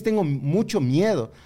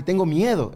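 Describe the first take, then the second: First: "mucho" drawn out for emphasis; slow down and lean on "mucho"; deliberate weight on "mucho"; stress on mucho. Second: Said in the usual way. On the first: Retold or imitated. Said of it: "la, la expresión es". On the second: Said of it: "la expresión es, Tengo mucho miedo".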